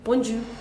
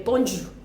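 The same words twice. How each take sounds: First: The j sound is hard and thick. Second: The same.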